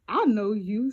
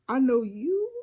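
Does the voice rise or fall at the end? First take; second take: falls; rises. First: It is said as a statement, falling. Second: It is said as a question, rising.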